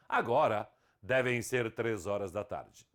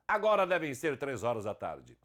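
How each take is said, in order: First: There is a pause after the first word. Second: It runs on without a pause after the first word. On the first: "com vírgula" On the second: "sem vírgula"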